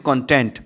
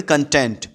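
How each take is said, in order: First: content said CON-tent, the stress on the first syllable; content as the noun for a book's contents, CON-tent. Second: content said con-TENT, the stress on the last syllable; content as the adjective meaning happy, con-TENT; stress on the second syllable. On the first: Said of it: "लेकिन उसको बोलते हैं content". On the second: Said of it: "तो इसको पढ़ेंगे content". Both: Shown as a demonstration.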